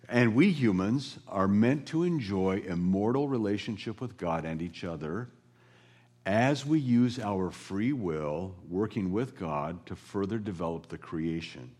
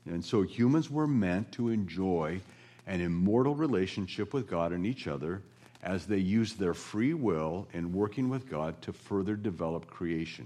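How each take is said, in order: First: It is said slowly. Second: It is said at normal speed.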